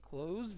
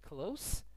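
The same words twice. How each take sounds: First: The word ends with a z sound. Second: The word ends with an s sound. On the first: It means to shut. "اگه با ز تلفظ کنید" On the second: It means near. "اگه همین کلمه رو شما با سه تلفظ کنید"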